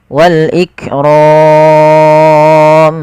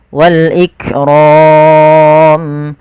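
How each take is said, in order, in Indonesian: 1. Vokal panjang akhir ditahan sangat panjang. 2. Vokal panjang akhir ditahan cukup panjang. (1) "enam harokat" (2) "empat harokat"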